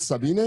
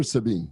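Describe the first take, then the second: First: Sabine said as "suh-bee-NAY"; Sabine with extra syllable. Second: Sabine said as "suh-BEEN"; two-syllable Sabine. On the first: Host checking guest's name, Sabine as "suh-bee-NAY". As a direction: end Sabine on an "ay" sound. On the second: Host checking guest's name, Sabine as "suh-BEEN". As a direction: end Sabine on "been", silent final e. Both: Shown as a demonstration. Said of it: "Is it Sabine or Sabine?".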